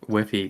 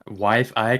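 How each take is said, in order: First: The name ends with an 'eek' sound. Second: The name ends with an 'Ike' sound. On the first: This is a playful pronunciation. "it's more fun to say Wifeek" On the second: This is the intended pronunciation. "I think that's how you're supposed to say it"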